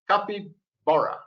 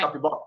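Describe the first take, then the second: First: The word is said slowly. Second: The word is said fast.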